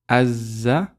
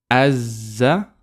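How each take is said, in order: No difference in how they are said.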